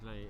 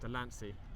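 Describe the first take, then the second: First: The name is said without an s sound. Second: The name is said with an s sound. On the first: The speaker calls it wrong. "I realised I've been mispronouncing Delaney" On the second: The speaker calls it right. "It's Delancey"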